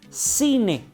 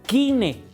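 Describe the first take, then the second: First: The word begins with an S sound. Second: The word begins with a K sound. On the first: "pero en griego se pronuncia cine" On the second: "Si lo leyéramos tal y como está escrito en español, diríamos"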